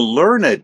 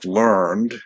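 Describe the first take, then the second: First: The ending is voiced separately; two syllables. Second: The ending is joined; the word has one syllable. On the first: It describes someone as scholarly. "That's the adjective" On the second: It is the past tense of the verb. "That's the verb"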